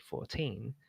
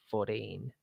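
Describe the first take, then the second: First: The T is said as a clear T. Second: The T is said like a D. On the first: This is how Brits say it. "whereas we say fourteen" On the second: This is how Americans say it. "In American, you tend to use a D instead of a T"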